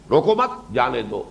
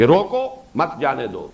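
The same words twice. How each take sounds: First: روکو مت run together, then جانے دو set apart; pause after مت. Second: روکو set apart, then مت جانے دو run together; pause after روکو. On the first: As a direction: break after مت, joining it to روکو. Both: Shown as a demonstration. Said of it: "کہاں آپ نے وقفہ ڈالا".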